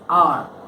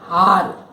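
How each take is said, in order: First: The word begins directly with a vowel sound. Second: The word begins with an audible H sound. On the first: The speaker calls it right. "you say it as R" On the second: The speaker calls it wrong. "You don't say R"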